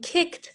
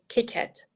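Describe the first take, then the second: First: The ending is joined, making one syllable. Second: The ending is a separate extra syllable. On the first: The speaker calls it right. "instead of saying kicked" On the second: The speaker calls it wrong. "they say kick it"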